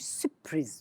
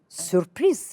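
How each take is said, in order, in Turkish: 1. p'den önceki r düşürülüyor. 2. p'den önceki r açıkça telaffuz ediliyor. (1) "Herkes bir sürpriz diyor" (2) "Re'yi önce kullanacak"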